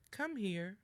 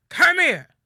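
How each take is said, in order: First: Friendly "Come here" with a light rise on "come"; gentle invitation. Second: Much louder, higher furious "Come here", falling; angry shout. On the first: Mother calling a child kindly, friendly rise. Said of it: "if you hear the first". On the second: Angry parent summoning someone, loud shouted command. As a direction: bark it as a threat. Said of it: "But if somebody says to you". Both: Shown as a demonstration.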